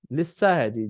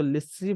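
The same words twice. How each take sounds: First: लिस्सा with a doubled स्स and a final open आ; correct lissa. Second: लिस्सी with a final long ई, the wrong way; wrong vowel lissi. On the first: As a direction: stress लिस्सा, ending firmly in aa. (लिस्सा सही उच्चारण, आ की आवाज़ के साथ) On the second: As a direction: say लिस्सी ending in ee, as some wrongly read it. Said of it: "कुछ लोग इसको लिस्सी पढ़ते हैं". (लिस्सी को ई की आवाज़ के साथ, गलत उच्चारण) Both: Shown as a demonstration.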